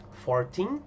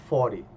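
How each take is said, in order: First: "fourteen" rising onto a stressed second syllable; stress on TEEN. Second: "forty" punched loud on the first syllable, short "ty"; stress on FOR. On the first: Teacher contrasts it with forty, stress on final TEEN. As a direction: lean on the end: four-TEEN. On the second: Teacher contrasts it with fourteen, stress on first syllable FOR. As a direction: hit the start: FOR-ty. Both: Shown as a demonstration. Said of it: "ó a diferença".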